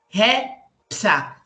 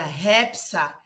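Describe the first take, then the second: First: The syllables are said apart with pauses. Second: The syllables run together as one word.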